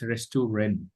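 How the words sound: It is pronounced with English sounds. "In English, we write restaurant"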